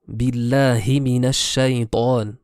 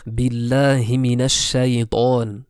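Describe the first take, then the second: The two takes are said the same way.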